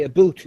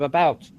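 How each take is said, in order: First: "a boot" with a long oo vowel; mock Canadian pronunciation. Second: Said in the usual way. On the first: Shown as a demonstration. Attempting to talk Canadian, "a boot" with an oo. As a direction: say "a boot" for about, Canadian caricature. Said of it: "if I try to talk Canadian". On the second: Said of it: "say a boot instead of about".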